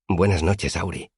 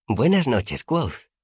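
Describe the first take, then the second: First: Said in the usual way. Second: Put-on high, light childlike voice; Auri's girlish greeting. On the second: A narrator's reading. Auri greeting her friend on the rooftop, high girlish voice. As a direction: greet like a shy sprite.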